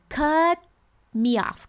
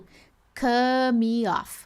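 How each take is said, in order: First: The T in cut is held, not released. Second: The T in cut is left out. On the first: The speaker calls it right. "Eu falo cut me off" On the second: The speaker calls it wrong. "Eu não excluo o T, eu não falo cut me off"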